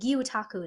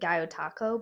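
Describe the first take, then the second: First: The first vowel sounds like 'oo'. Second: The first vowel sounds like 'oh'. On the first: The speaker calls it right. "Gyutaku is the correct pronun- pronunciation" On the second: The speaker calls it wrong. "I think I was saying Gyotako before"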